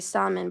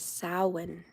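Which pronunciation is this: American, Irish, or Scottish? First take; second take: American; Irish. First: It is said as an American reads the spelling. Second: It is said with an Irish pronunciation. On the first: The speaker calls it wrong. "I say Samhain, but you know, I'm in America, so I'm trying to read it" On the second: The speaker calls it right. "the Irish represented it as Samhain"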